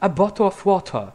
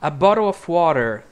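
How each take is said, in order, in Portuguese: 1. É dito com sotaque britânico. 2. É dito com sotaque americano.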